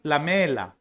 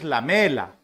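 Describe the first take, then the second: Both takes have the same delivery.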